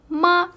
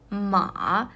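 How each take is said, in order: First: The pitch stays level and high. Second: The pitch dips low and then rises. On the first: It means mom. "we gave the first tones in there" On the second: It means horse. "third tones"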